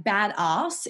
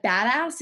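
First: Slow BADASS drawn out as "bad-arse"; Australian pronunciation. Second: BADASS with a short "a" in ASS; American-style pronunciation. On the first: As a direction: stretch BADASS with an Australian long "ah". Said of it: "ass doesn't sound very good Australian". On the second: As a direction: say BADASS the American way, not "bad-arse". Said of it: "but badass is like". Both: Shown as a demonstration.

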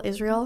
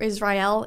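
First: "Israel" said IZ-reel, two syllables; corrected "Israel", IZ-reel. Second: "Israel" said iz-RYE-el, three syllables; first take of "Israel", iz-RYE-el. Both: Real, not acted.

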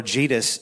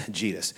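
First: Jesus garbled with Judas, as "Jee-dus"; slip of the tongue. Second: Said in the usual way. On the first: Real, not acted. Preacher muddles Jesus and Judas, slip of the tongue. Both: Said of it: "when you mix Jesus and Judas together".

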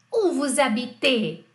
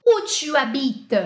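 First: Slow "habitez", weight on the last syllable "-tez"; stress on final syllable. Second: Slow "habites", long "bi" and light ending; stress on BI. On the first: Teacher models the vous question, "habitez" stressed on final "-tez". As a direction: land firmly on the "-tez" of "habitez". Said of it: "Perceba a sílaba tônica no vous". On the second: Teacher contrasts tu with vous for class, "habites" stressed on "bi". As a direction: stretch the "bi" in "habites", let the ending drop. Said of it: "Perceba a sílaba tônica no vous e no tu". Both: Shown as a demonstration.

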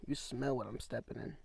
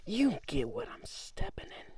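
First: Said in the usual way. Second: High, breathy whisper of the wrong catchphrase; wrong phrase whispered. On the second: Shown as a demonstration. Misquoting the catchphrase to the listener in a whisper. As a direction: botch the saying in a hushed voice. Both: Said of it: "No, you smell".

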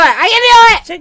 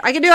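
First: High, loud and slow pep shout; self-psyching shout. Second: Said in the usual way. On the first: Real, not acted. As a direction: pump yourself up, slow and loud. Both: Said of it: "psyching herself up".

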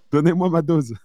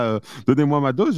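First: Mock junkie plea. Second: Mock junkie craving. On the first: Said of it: "j'ai fait". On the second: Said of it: "comme un addict à sa cam".

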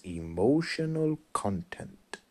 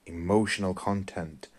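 First: Slow, soft, drawn-out Bruce Lee line; quiet, slow Bruce Lee imitation; imitating Bruce Lee. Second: Said in the usual way. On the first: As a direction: savour each word like Bruce Lee teaching. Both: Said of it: "the way he delivers it when he goes".

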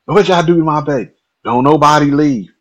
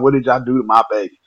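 First: Higher, louder, fast frantic demand; panicked mother. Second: Fast, alarmed plea; worried mother. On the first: Mom demands answers about her hurt son, frantic. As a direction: repeat it near hysterical. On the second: Mom finds her son limp on the porch, alarmed. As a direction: ask it in rising panic. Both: Retold or imitated.

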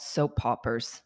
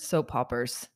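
First: Soap poppers, with a p on poppers; childhood mispronunciation. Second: Soap operas, said the normal way with no p; plain soap operas, the grown-up way; correct pronunciation. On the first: Recalling a childhood word to her friend, soap poppers with a p. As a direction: say it soap poppers, like a little kid. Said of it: "I thought that they were called soap poppers". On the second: Correcting herself for her friend, plain Soap operas. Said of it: "Not soap operas". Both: Shown as a demonstration.

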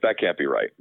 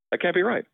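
First: Said in the usual way. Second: Higher-pitched incredulous repeat, rising at the end; imitated disbelief. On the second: Tax friend hearing the opportunity zone pitch, imitated disbelief. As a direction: echo a friend's doubt, pitched well up.

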